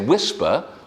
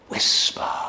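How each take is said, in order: First: The word is said in a normal voice. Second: The word is said in a whisper. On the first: The speaker calls it wrong. "I wouldn't say whisper" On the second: The speaker calls it right. "I would say whisper"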